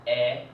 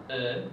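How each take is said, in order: First: "E" said as the open French è with a rising end; French è sound. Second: "E" said as a closed French é, raised and held; French e sound. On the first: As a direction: open the mouth wide on "E" like the French è. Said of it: "it's pronounced E". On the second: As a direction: give "E" the tight French é vowel. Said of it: "which is pronounced E". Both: Shown as a demonstration.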